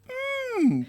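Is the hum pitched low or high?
high. The hum is at a noticeably higher pitch.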